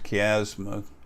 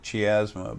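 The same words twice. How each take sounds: First: The word is pronounced the way doctors say it. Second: The word is pronounced the way it is spelled. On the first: The speaker calls it right. "it's pronounced chiasma. Well, that's what doctors do" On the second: The speaker calls it wrong. "if you pronounce it as it's written"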